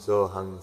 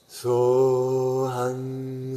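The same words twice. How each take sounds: First: The sound is thin and stays in the mouth. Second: The sound is soft and resonates in the chest. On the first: The words carry no feeling. "A person speaking without a feeling will be using their lips" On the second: The speech comes from the heart. "come to the chest. We speak from the heart"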